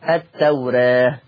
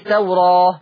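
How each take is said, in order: First: The long a vowel leans toward e. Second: The long a vowel is fully open. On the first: The speaker calls it right. "مقلل قولا واحدا" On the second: The speaker calls it wrong. "ما قلتش التوراة بالفتح"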